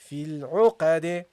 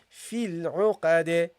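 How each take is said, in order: First: The final d is released with a bounce. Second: The final d is released with a bounce.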